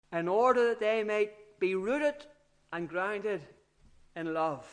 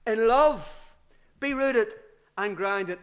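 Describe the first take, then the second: First: Said in the usual way. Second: Love punched loud, then rooted and grounded eased off; stress on love. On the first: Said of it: "the word order in the Greek original is the other way around". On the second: Shown as a demonstration. Preacher showing the Greek word order, love stressed. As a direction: put the weight on love at the start. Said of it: "He puts love at the front of the thing".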